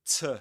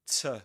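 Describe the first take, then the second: First: The vowel is reduced to a weak schwa. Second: The vowel is reduced to a weak schwa.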